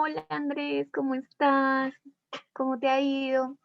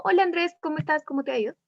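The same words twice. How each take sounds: First: Flirty. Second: Quick, businesslike greeting; serious, passing. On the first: Teacher demonstrating a tone to the class, flirty. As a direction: linger sweetly on each word to flirt. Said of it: "Que uno suena más coqueto". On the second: Teacher demonstrating the second tone to the class, serious and passing. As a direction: run through it briskly, just in passing. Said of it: "se sabe que es algo más serio". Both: Shown as a demonstration.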